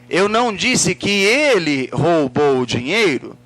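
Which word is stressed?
ele. The word ele carries the emphasis. Someone else might have stolen it. "quem foi que roubou?"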